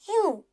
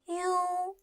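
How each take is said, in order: First: The pitch falls sharply from high to low. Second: The pitch stays high and level.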